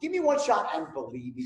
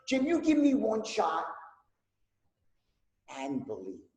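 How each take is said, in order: First: It sounds firm and certain. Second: It sounds warm and sincere.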